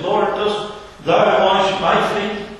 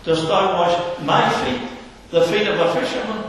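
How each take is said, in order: First: Slow, higher, leaning on thou and my; emphatic question. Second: My rises and gets the weight, fisherman rushed higher; stress on my. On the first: Preacher voicing Peter to the Master, slow and emphatic. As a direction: Peter in disbelief, stressing thou and my. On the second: Peter protesting to the Saviour, stressing my. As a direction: lean on my in disbelief. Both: Retold or imitated. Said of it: "two words very emphatic".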